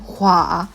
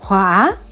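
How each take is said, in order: First: It is said as a falling exclamation. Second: The pitch rises like a question. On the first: "now you've got this exclamation" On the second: "Her tone goes up, so it's the question mark"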